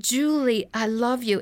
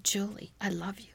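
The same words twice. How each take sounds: First: Firmer, fuller voice on the name; mildly raised voice, retelling a call; louder calling voice. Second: Very soft, slightly lowered, tender message; a hushed voice waking a sleeper; soft inner voice. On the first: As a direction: call it out a little more insistently. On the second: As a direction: say it gently, almost under the breath. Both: Retold or imitated. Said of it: "that voice got louder and louder".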